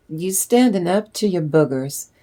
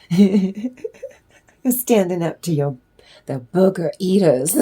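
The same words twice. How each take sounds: First: Said in the usual way. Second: Slowed down, laughing through the words. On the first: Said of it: "repeats it laughing". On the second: Real, not acted. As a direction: breaks into laughter mid-phrase.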